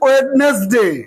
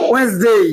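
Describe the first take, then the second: First: The middle d sound is pronounced. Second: The middle d sound is silent. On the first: The speaker calls it wrong. "আমরা বলি ওয়েডনেসডে, ভুল উচ্চারণ" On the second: The speaker calls it right. "বলো ওয়েন্স ওয়েন্স ডে"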